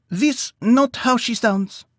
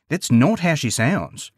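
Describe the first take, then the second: First: Much higher, slow, foreign-sounding mouse voice, stressing not; a small mouse firmly denying it; Maximus voice. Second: Lightly voiced kangaroo, slow, leaning on not; a hint of a calm Australian roo setting it straight; Hopper voice. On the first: Acted. Maximus corrects Plenton. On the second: Hopper corrects Plenton.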